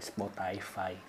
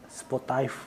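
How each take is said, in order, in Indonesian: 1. Diucapkan dengan lafal yang mirip bahasa Inggris. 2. Diucapkan dengan lafal Indonesia lokal. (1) "harusnya yang bener kan Spotify. Harusnya gitu" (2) "Kayak Spotify gitu kan"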